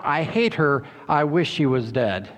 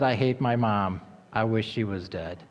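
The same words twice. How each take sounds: First: Said in the usual way. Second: Put-on softer, lower, sober replay of the girl's words; hushed repeat. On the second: Shown as a demonstration. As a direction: let the words sink in quietly. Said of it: "Do you think she was really understanding".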